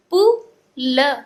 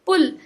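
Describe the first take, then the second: First: "पु", pause, "ल", slow and loud; broken into sounds. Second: "पुल" blended into one word; joined up. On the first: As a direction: sound out "पु" and "ल" separately. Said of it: "तोड़ तोड़ के पढ़ना". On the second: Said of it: "एक साथ में मिला के पढ़ें". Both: Shown as a demonstration.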